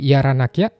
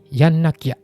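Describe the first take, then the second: First: The ra syllable is pronounced fully. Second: The ra syllable merges into a double n. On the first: "Dari yaranakya" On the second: "bunyi ra yang melebur"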